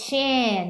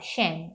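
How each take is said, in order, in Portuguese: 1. A sílaba é prolongada devagar. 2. A sílaba é dita muito rápido. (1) "Não é que você faz shen, não" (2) "é bem rapidão"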